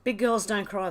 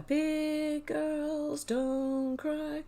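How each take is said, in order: First: Said in the usual way. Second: High, very slow sung line with long held notes; sung, drawn-out a cappella pop line; singing. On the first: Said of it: "don't ask me to sing". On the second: Real, not acted. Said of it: "don't ask me to sing the rest of it".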